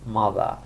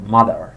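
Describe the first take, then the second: First: The final r is silent, in a British way. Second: The final r is pronounced, in an American way. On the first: "این تلفظ بریتیشه ها" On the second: "توی امریکن آر خونده میشه"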